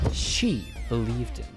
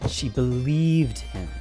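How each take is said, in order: First: The word she carries the stress. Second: The word believed carries the stress. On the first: "Let me stress each word" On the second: "Let me stress each word"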